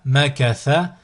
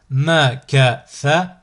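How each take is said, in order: First: Syllables joined as one word. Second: Slow, each syllable drawn out separately; split into syllables. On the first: Teacher models a word for learners to repeat, joined in one go. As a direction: run the syllables together without pauses. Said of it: "le mot attaché". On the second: Teacher models a word for learners to repeat, split into syllables. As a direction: cut the word up, pausing between syllables. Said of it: "décomposer le mot". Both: Shown as a demonstration.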